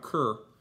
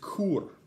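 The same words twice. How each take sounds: First: It is pronounced like the English word for dog. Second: It is pronounced with a Latin vowel sound. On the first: It is the English word for a kind of dog. The speaker calls it wrong. "Not cur. Cur is a kind of dog" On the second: It is the Latin word meaning why. The speaker calls it right. "The next word is cur"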